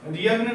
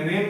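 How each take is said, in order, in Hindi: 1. n से पहले g की आवाज़ बोली जाती है। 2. n से पहले g की आवाज़ नहीं बोली जाती। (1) "रियग्न नहीं बोलेंगे" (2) "रेन बोलेंगे"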